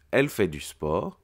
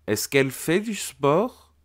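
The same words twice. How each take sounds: First: Said in the usual way. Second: "Est-ce qu'elle fait du sport?" pitched high and rising up to "sport"; questioning rise. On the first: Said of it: "On part de la phrase déclarative". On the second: Shown as a demonstration. Teacher showing the pupil how the question sounds, rising high. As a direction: sing the question upward at the end. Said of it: "l'intonation de ma voix a changé".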